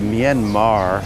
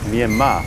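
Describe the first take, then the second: First: The word ends with a pronounced R sound. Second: The word ends with no R sound. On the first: The speaker calls it wrong. "So it's not really Myanmar at all" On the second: The speaker calls it right. "It's more like Myanmar"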